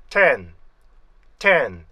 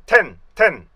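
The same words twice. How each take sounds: First: "텐" drawn out, gliding down into a long n; correct pronunciation. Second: "텐" short and loud as one Korean block; wrong one-syllable reading. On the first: Teacher modeling the accurate word, falling two-part glide. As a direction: stretch "텐" as te-en in a falling slide. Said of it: "이렇게 잡으면은 정확한데". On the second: Teacher rejecting the Korean habit, short wrong syllable. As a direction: punch out "텐" without gliding. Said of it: "이게 아니고요". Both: Shown as a demonstration.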